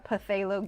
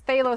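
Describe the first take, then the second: First: The word begins with a sounded P. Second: The word begins without a P sound. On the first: "Steve likes to say uh, Puthalo green" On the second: "Silent P"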